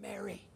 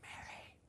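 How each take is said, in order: First: Quiet calling of her name; hushed tender call; soft call. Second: Breathy whispered name; a tender whispered Mary. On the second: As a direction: whisper her name like a secret. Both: Acted.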